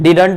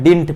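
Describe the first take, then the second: First: The word is said with two syllables. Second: The word is said with one syllable. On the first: The speaker calls it wrong. "This is not your good pronunciation" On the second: The speaker calls it right. "डिंट पढ़ते हैं"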